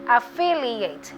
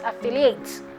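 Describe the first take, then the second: First: Every syllable of the word is pronounced. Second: A syllable is dropped from the word. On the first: The speaker calls it right. "That is correct" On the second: The speaker calls it wrong. "It is commonly mispronounced as affiliate. But then you may miss the syllables here"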